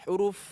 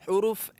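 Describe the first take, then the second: Both takes have the same delivery.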